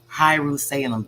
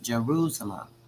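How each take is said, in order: First: The word begins with an H sound. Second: The word begins with a J sound. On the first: This is the old form in the text. "they're pronouncing it Hierusalem" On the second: This is the modern form of the name. "but it's Jerusalem"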